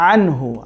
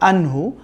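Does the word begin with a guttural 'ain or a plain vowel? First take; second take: guttural; plain vowel. First: The word begins with a guttural 'ain sound. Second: The word begins with a plain vowel. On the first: The speaker calls it right. "আনহু না, এটা হবে আনহু" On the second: The speaker calls it wrong. "আইন কিন্তু অনেকে বলে আনহু"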